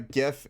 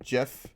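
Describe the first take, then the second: First: The word begins with a hard G sound. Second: The word begins with a soft J sound. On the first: "instead of uh" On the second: "everyone pronounces it Jeff"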